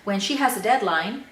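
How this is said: The voice rises at the end of the clause. The sentence is not finished yet. The speaker calls it right. "after the when clause, I went up a little bit, paused"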